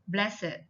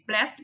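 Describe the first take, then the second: First: The ending adds an extra id syllable. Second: The ending is a plain t, one syllable. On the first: It is used as an adjective. "the ed adjective takes it" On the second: It is used as a verb. "verbs simply follow the rules before"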